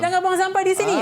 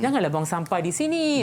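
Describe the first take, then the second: First: It is said in a sharp, harsh tone. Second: It is said in a gentle, polite tone. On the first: The reprimand is given rudely. The speaker calls it wrong. "Lain intonasi dia" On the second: The reprimand is given courteously. The speaker calls it right. "biarlah berhemah sikit"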